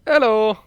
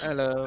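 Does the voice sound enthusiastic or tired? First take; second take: enthusiastic; tired. First: It is said with lively enthusiasm. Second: It is said in a flat, tired way.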